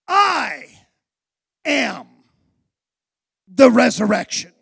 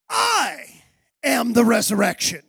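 First: Slow, each word set apart, "resurrection" louder; emphatic I am. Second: "I" hit hardest, falling proclamation; proclaimed. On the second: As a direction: call out "I am the resurrection" as a declaration. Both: Retold or imitated. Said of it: "he emphatically answers her".

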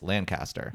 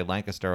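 First: Lancaster with full CAST in it; California Lancaster, LAN-caster. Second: Lancaster with a squeezed middle syllable; Pennsylvania Lancaster, LANK-ister. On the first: Co-host giving the California way, Lancaster as LAN-caster. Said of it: "but in California, that's Lancaster". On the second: Co-host giving the Pennsylvania way, Lancaster as LANK-uh-ster. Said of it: "we say Lancaster over here in Pennsylvania". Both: Shown as a demonstration.

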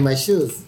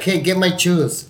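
First: "shoes" with a clear sh at the start; quick self-fix, "shoes" back to sh; corrected sh. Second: "shoes" said "chooz"; higher, slower, with a Mexican ch opening "shoes"; sh turned to ch. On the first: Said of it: "Fuck, I mean". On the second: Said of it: "but so, all of a sudden". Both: Shown as a demonstration.

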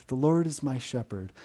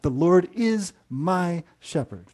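First: Said in the usual way. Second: "The Lord IS my shepherd", slow, IS and MY set apart; stress on IS. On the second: Shown as a demonstration. Preacher telling listeners it is a fact, stress on "is". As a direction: lean hard on "is", spacing out the words after it. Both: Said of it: "put the emphasis on different words".

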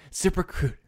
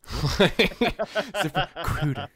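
First: Sing-song the sponsor name up high; mock ad read. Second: Very slow, high, laughing mock plug; laughing drawn-out ad read. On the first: Friend mocking a podcast host's ad read, high and sing-song. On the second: Friend mocking a host's ad read, slow and laughing. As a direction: stretch the name out slowly through a laugh. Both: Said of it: "but she goes".

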